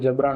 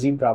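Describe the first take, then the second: First: The first syllable sounds like 'ja'. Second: The first syllable sounds like 'zee'. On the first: The speaker calls it wrong. "जबरा नहीं बोलते" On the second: The speaker calls it right. "जीब्रा बोलते हैं"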